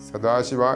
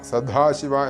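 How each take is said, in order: First: The middle consonant is an unaspirated 'd'. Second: The middle consonant is an aspirated 'dh'. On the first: The speaker calls it right. "സദാശിവ എന്ന് മാത്രമേ ഉള്ളൂ" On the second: The speaker calls it wrong. "ധ സദാശിവ എന്നൊന്നും ഉച്ചരിക്കരുത്"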